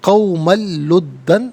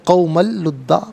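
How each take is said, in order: First: The phrase ends with an n sound. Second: The phrase ends with a long vowel. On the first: The reader continues without stopping. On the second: The reader stops here.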